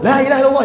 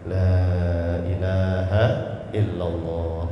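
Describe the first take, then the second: First: It is said loudly and harshly. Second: It is said softly and gently. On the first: The speaker calls it wrong. "jangan dibentak-bentak. ... gitu. Jangan begitu ya" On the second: The speaker calls it right. "Pelan-pelan dibisikkan atau dibacakan di sampingnya"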